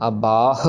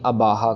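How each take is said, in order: First: The word ends on a breathy h sound. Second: An extra vowel follows the final h. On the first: The speaker calls it right. "अबाह और अगाह की आवाज आनी चाहिए" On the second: The speaker calls it wrong. "ना ही अबाहा कर दें"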